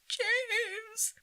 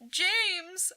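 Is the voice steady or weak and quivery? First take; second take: weak, quivery; steady. First: The voice is weak and quivery. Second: The voice is plain and steady.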